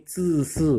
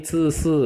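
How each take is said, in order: First: ZI SI with tight hissing vowel; pressed sound. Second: ZI SI with looser, uh-like vowel; relaxed, higher ZI SI; first sound. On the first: Teacher saying these differ, pressed sound. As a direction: press the tongue on ZI SI. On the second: Teacher contrasting two syllables, open muted vowel. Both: Shown as a demonstration. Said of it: "Ini agak ditekan ya".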